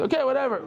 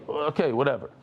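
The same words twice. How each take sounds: First: "Okay, whatever" tossed off much higher; playful dismissive sing-song; mock dismissive. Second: Said in the usual way. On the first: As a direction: brush it off with a shrug. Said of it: "Oh, thank you very much". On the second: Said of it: "That's how they said it in yeshiva".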